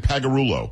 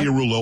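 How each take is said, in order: First: Pagarulo with no LIA; Pagarulo, middle squashed to PAG-a-RU-lo; shortened pronunciation. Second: Pagliarulo with the LIA kept in; Pagliarulo, nothing dropped from the middle; full pronunciation. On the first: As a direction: say Pagarulo in four syllables. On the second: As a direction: say Pagliarulo in five syllables. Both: Shown as a demonstration. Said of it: "leaving out the L I A".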